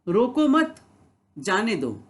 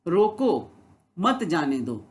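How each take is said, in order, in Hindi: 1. 'mat' के ठीक बाद विराम है। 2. 'roko' के ठीक बाद विराम है। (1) "यानी कोई व्यक्ति जा रहा है उसको रोको मत, उसे जाने दो" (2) "यानी कोई जा रहा है उसको रोको, उसको जाने मत दो"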